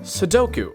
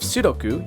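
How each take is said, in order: First: It is said with English pronunciation. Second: It is said with Japanese pronunciation. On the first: "you play" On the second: "You don't play a game of"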